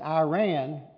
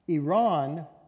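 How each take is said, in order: First: Iran is said with an Americanized pronunciation. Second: Iran is said close to the native pronunciation. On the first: "common Americanized pronunciation" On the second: "closer to how the native people pronounce it"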